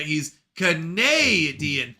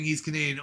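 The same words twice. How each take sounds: First: "Canadian" with a long, stressed "nay" in the middle; drawn-out middle syllable. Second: Said in the usual way. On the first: Shown as a demonstration. Streamer showing chat the pun in the name, "Canadian" with its middle "eh" drawn out. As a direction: stretch the second syllable of "Canadian" slowly, like "eh". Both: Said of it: "a play on how Canadians say A".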